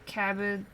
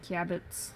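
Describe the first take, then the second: First: It is said with an English pronunciation. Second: It is said with a Japanese pronunciation.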